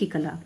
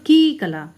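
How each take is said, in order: First: The vowel of 'ki' is said short. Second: The vowel of 'ki' is held long. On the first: "इसकी लघु की आ रही है" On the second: "हमें बोलना चाहिए वैसे तो की कला"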